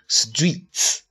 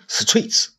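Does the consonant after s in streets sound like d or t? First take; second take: d; t. First: The t after s sounds like a soft d. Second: The t after s sounds like a clear t. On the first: The speaker calls it right. "要轻音浊化，要读streets 啊" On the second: The speaker calls it wrong. "不要读streets"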